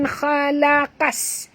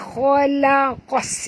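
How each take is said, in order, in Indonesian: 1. Bunyi qaf ringan dan tipis. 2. Bunyi qaf berat dan tebal. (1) "bukan khalaqas" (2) "Jadi bunyi dia tebal"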